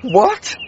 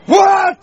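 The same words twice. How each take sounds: First: It is said in a miserable, grieving tone. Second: It is said in an angry tone.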